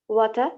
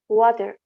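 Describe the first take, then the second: First: It is said with a British accent. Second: It is said with an American accent.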